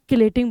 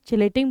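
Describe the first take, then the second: First: The word begins with a 'k' sound. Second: The word begins with a 'ch' sound. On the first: "आप किलेटिंग बोलिए" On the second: "आप इसे चिलेटिंग बोलिए"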